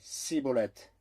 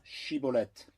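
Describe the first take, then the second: First: The word begins with an 's' sound. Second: The word begins with a 'sh' sound. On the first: The speaker calls it wrong. "car il ne pouvait pas bien le prononcer" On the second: The speaker calls it right. "dis maintenant Chiboleth"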